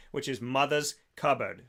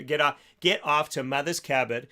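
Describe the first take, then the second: First: Said in the usual way. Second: Slipping into a Boston accent on "Cupboard", dropping the r: "kabbut". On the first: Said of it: "I don't know why I went Boston". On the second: Real, not acted. Radio host plugging a sponsor, lapsing into a Boston accent. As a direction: say "Mother's Cupboard" with a light Boston accent, no r's. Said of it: "I don't know why I went Boston on that one".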